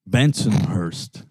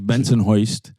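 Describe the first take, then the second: First: It is said in a plain accent. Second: It is said in a local Bensonhurst accent.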